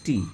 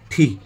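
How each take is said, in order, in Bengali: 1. t টা বলা হয় বাতাসের ফুঁ ছাড়া। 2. t টা বলা হয় বাতাসের ফুঁ দিয়ে। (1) "আমরা সবাই বলি টি" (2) "কিন্তু এটার সঠিক উচ্চারণটা কি থি"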